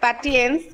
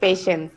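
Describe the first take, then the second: First: The word is read with a 't' sound. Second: The word is said with a 'sh' sound. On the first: This is how the word is written. The speaker calls it wrong. "লিখতে লাগে লাগে পাটিয়েন্স" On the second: This is how the word is actually pronounced. The speaker calls it right. "কিন্তু pronunciation হচ্ছে পেশেন্স"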